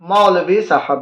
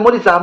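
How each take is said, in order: First: The first word is pronounced 'maulvi'. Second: The first word is pronounced 'mooli'. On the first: The speaker calls it right. "मूली नहीं कहा जाता, क्या कहा जाता है?" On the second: The speaker calls it wrong. "लोग ये मूली कहते हैं"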